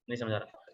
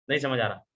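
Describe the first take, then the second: First: A dull, withdrawn repeat; flat low mumble. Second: Said in the usual way. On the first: Shown as a demonstration. Trainer showing students a lifeless way of talking, softly mumbled. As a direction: drop the voice low and much softer, no life in it. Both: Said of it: "कुछ difference महसूस हो रहा है अब मेरी बात करने में".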